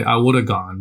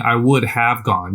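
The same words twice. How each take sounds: First: Woulda run together, have shrunk to a quick uh; the easy spoken woulda; relaxed woulda, words blended; reduced casual form. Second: Would have said out in full, each word separate; full careful form. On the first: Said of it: "You say". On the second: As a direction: pronounce would have like a textbook. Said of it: "But you're not saying". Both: Shown as a demonstration.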